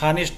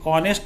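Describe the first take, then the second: First: The word begins with an h sound. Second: The word begins with a vowel sound. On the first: The speaker calls it wrong. "हानेस्ट नहीं बोलते" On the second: The speaker calls it right. "इसको भी ऑनेस्ट हम कहते हैं"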